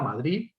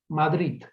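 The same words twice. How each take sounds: First: The final D is soft and relaxed. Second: The final D is pronounced the Catalan way. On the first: This is the prestigious variant. "la D aproximante eh, relajada" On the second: It copies Catalan pronunciation. "la variante vernácula, calco del catalán"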